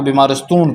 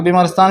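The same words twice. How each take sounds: First: بیمارستون with the final aa rounded to oon; colloquial Persian vowel. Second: بیمارستان with a clear open aa at the end; standard Persian vowel. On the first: Teacher gives the colloquial form of hospital, spoken pronunciation. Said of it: "بیمارستان کو بیمارستون پڑھیں". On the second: Teacher gives the standard form of hospital, formal pronunciation. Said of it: "بیمارستان بھی بول سکتے ہیں". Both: Shown as a demonstration.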